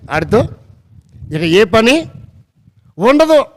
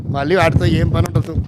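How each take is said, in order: First: Broken into pieces, with "ఉండదు" punched high and loud; emphatic repetition. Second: Said in the usual way. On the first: Real, not acted. Preacher drives home to listeners that the vessels go unused, emphatically, "ఉండదు" punched. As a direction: pause after "వాటితో" and "ఏ పని", then hit "ఉండదు" high.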